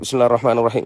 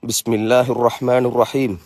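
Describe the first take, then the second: First: It is recited quickly and hurriedly without pauses. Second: It is recited slowly with pauses between phrases. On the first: The prayer is rushed without understanding the words. The speaker calls it wrong. "பறவைகள் குத்துற மாதிரி தொழுகிறோம்" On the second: The prayer is performed with humility and attention. The speaker calls it right. "மெதுவாக ஓதுவோம்... ஒவ்வொரு இடத்துலையும் ஒரு கேப்"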